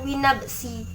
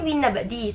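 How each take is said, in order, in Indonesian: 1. Kata ini diucapkan dengan bunyi 's'. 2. Kata ini diucapkan dengan bunyi 'd'. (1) "tapi dibaca winnabsi" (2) "latinnya kan winnabdi"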